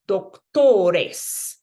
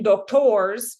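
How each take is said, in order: First: "doctores" said louder, with a full Spanish e before the s; careful Spanish. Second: Said in the usual way. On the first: Shown as a demonstration. Teacher correcting the English slip into Spanish. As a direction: stress "doctores" on the second-to-last syllable. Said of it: "it's like, okay". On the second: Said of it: "if you notice you're saying doctors".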